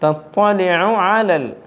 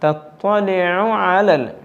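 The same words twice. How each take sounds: Both takes have the same delivery.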